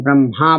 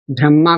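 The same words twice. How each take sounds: First: ब्रह्मा said bramha, h moved after m; spoken form. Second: ब्रह्मा said bramma with doubled m; written form first. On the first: Teacher showing students how people commonly say it. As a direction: say ब्रह्मा as bram-ha. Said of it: "ब्रह्मा बोल देते हैं". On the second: Teacher naming the word before the spoken form. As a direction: say ब्रह्मा as bram-ma. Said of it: "ब्रह्मा को हम ब्रह्मा बोल देते हैं". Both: Shown as a demonstration.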